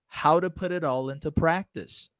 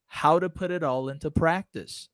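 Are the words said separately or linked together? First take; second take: linked; linked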